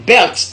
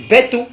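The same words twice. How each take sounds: First: "belt" in one syllable; English pronunciation. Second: "beto" with no l and a final o; Godié pronunciation. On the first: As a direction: end "belt" on lt. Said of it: "belt en anglais". (« belt » à l'anglaise, finale en lt) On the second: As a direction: say bè-to, higher pitched. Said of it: "en gaudier". (« beto » à la godié, prononcé bè-to) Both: Shown as a demonstration.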